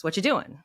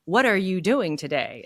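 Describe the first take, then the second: First: "What you doing?" run together with the "are" dropped; a relaxed, clipped "What you doing?" with only "doing" stressed; reduced casual form. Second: Said in the usual way. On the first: Shown as a demonstration. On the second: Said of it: "one says".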